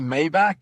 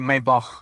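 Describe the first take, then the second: First: The word ends with a hard k sound. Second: The word ends with a ch sound. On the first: "I say Maybach" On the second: "with a ch at the end"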